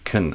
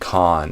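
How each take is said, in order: First: The vowel is short and reduced. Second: The vowel is full and unreduced. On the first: The speaker calls it right. "I'm saying kind of a con" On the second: The speaker calls it wrong. "I'm not saying con"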